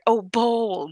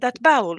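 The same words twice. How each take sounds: First: Said in the usual way. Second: Imitated Arabic accent turning bowl into "bowel". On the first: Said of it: "You want the bowl?". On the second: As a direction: say "bowel" in two syllables for bowl. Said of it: "somebody with a strong accent".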